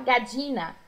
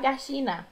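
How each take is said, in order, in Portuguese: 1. O duplo L soa como dj. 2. O duplo L soa como sh. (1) "como se fosse DJ" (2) "como se fosse um X"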